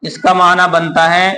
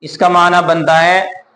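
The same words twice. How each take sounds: Both takes have the same delivery.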